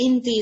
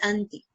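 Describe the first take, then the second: First: The word begins with an 'i' vowel. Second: The word begins with an 'a' vowel. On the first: It is a casual colloquial style. "in style they say inti" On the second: It is the standard form. "the proper pronunciation is auntie"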